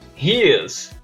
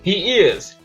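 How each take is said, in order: First: The two words merge into one syllable. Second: Both words are said fully and separately.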